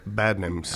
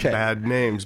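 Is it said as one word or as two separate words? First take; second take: one word; two words. First: The two words run together as one word. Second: The two words are said as separate words. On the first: The speaker calls it right. "It's all one word" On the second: The speaker calls it wrong. "not two words"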